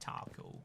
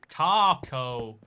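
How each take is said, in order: First: The word is said in a plain British accent. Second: The word is said in a deliberately exaggerated way. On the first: "this is how I say taco" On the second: "I'm gonna say it like as wrong as I humanly can now"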